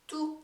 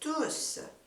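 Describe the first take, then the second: First: The final s sound is left silent. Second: The final s sound is clearly pronounced. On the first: It is used as an adjective meaning all. "여기서 발음하지 않는다 그랬어요" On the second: It is used as a pronoun meaning everyone. "투스라고 s 발음을 해주셔야 됩니다"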